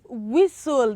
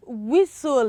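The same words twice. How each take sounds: First: The T sound is silent. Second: The same.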